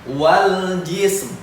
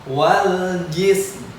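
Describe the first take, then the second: No difference in how they are said.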